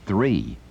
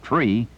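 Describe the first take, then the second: First: "three" with a clear th sound, standard American; proper three. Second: "tree" said with a plain T and no th, Brooklyn style. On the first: Shown as a demonstration. Instructor giving the correct number three, standard American pronunciation. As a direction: give "three" its full th, plainly. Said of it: "is supposed to mean". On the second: Retold or imitated. Instructor mimicking a Brooklyn CBer's number three, Brooklyn accent. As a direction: drop the th in "tree" like a Brooklyn CBer. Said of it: "Only a Brooklyn C-Beer would know that tree".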